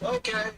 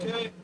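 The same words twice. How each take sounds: First: High, falling, hammed-up cool okay; cool guy voice. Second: A hint of a timid wimp, slightly higher; meek little okay; wimpy voice. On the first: Audition reply in a mock cool guy voice. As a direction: toss it off like a cocky cool guy. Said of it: "Do a cool guy voice". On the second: Audition reply in a mild wimpy voice. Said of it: "Do a wimpy voice".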